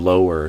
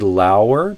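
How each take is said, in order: First: The first syllable rhymes with go. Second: The first syllable rhymes with now. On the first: The speaker calls it right. "but I would do lower. So it, it kind of the first syllable rhymes with go" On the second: The speaker calls it wrong. "You kind of did lower"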